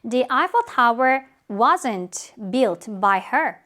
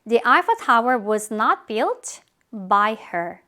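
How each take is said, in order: First: 'Was not' is contracted into one syllable. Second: 'Was not' is said as two full words.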